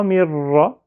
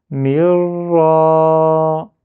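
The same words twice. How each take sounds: First: "mirra" with a short final a; sans prolongement. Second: "mirra" in one go, loud, final a held long; syllabes liées, voyelle prolongée. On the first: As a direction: cut the last vowel of "mirra" short, no stretching. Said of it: "C'est pas mirra". (« mirra » avec un a final bref) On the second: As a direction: roll "mir" into a long stretched "ra". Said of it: "je fais tomber la barrière". (« mirra » lié, a final longuement prolongé) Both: Shown as a demonstration.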